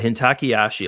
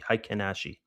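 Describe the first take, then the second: First: The first word has three syllables. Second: The first word has two syllables. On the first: It is a joking, anglicized way of saying it. The speaker calls it wrong. "I say it I say it wrong" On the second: It is the proper way of saying it. The speaker calls it right. "or something like that is the proper pronunciation for it"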